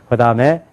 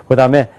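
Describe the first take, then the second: No difference in how they are said.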